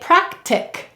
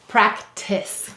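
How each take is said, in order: First: The word ends with a hard k sound. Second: The word ends with a soft s sound. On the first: This is how it would read without the final E. "What would it say without the E? It would say practic" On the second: This is how it reads with the final E. "but with it, practice"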